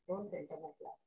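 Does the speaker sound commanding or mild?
mild. It is said in a softer, milder tone. It is not an order. "I change my tone and say"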